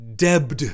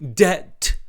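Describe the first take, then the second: First: The word is said with a b sound. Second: The word is said with no b sound. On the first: This is how the critic thinks it should be said. The speaker calls it right. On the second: This is how the mocked character says it. The speaker calls it wrong.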